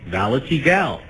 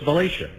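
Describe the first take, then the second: First: The name is said without a final 'sha' sound. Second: The name is said ending in a 'sha' sound. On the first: The speaker calls it wrong. "I called the horse. I looked at the spelling" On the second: The speaker calls it right. "now I know it's Valatia"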